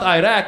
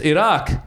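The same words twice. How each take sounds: First: It is said with an Americanized pronunciation. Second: It is said with a native-sounding pronunciation. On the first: The speaker calls it wrong. "He never even pronounced the country right. He called it Iraq" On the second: The speaker calls it right. "at least pronounce it right"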